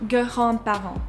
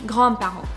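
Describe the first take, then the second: First: The G and R are said apart. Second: The G and R are run together. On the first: "start by pronouncing the G and the R more far apart" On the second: "incrementally make them come closer and closer together"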